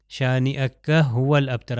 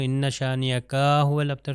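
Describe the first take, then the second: First: شانیہ هو الابتر with short کا; plain short کا in شانیہ. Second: شانیہ کا with the کا stretched long; lengthened ka. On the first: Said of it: "مطلب change ہو جاتا ہے". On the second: Teacher shows a wrongly stretched vowel. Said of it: "اگر میں کا کو بھی لمبا کر دوں". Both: Shown as a demonstration.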